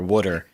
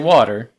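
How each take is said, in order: First: It is pronounced like 'wooder', regional style. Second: It is pronounced with a standard vowel. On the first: This is the form from the speaker's family region. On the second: This is the form chosen on purpose later.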